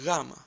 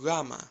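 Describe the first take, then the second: First: It begins with a soft w-like sound. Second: The same.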